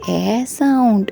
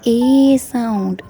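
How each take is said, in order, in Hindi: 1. अक्षर को उसकी छोटी स्वर ध्वनि के साथ बोला जाता है। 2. अक्षर को उसकी लंबी स्वर ध्वनि के साथ बोला जाता है।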